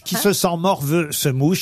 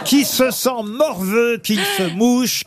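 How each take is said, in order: First: Said in the usual way. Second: "Qui se sent morveux, qu'il se mouche" slow, higher and emphatic; proverb slowly stressed. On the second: Shown as a demonstration. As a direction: spell out "morveux" and "mouche" slowly, pitch raised. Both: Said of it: "C'est un proverbe devenu célèbre".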